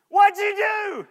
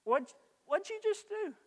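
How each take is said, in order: First: High, louder, laughing; amused laughing question. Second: Sharp, much higher, exasperated; irritated snap. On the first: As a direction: laugh it off playfully. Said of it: "one response to the second". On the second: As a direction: snap at him in annoyance. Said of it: "one response to the first one". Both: Shown as a demonstration.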